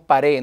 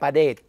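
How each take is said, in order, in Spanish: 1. La consonante final se omite. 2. La consonante final se pronuncia claramente. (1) "decimos pared" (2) "es la pared"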